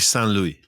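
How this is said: It is said the French way.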